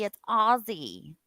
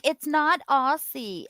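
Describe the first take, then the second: First: Aussie said with a z, OZ-ee, slow; imitating friends giving the proper OZ-ee; right Aussie. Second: Aussie said with a hard s, OSS-ee; imitating friends mocking the Aussie-with-an-s mistake; wrong Aussie. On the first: Retelling Aussie friends' correction, slow right Aussie with a z. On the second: Retelling Aussie friends' correction, slow wrong Aussie with an s. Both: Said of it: "they were like".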